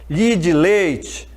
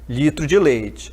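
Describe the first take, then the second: First: The last syllable of the first word is dropped. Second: The first word is said with all its syllables.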